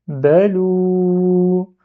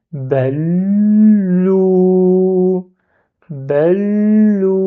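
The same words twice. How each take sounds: First: "balou" said as one chanted word; blended "balou". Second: "balou" with the lam held and doubled, slow. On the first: Teacher combines the syllables, chanted. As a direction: join "ba" and "lou". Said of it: "c'est ba". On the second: Teacher shows the shadda, slow and held. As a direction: stop on the lam before "lou". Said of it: "je bloque le lam". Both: Shown as a demonstration.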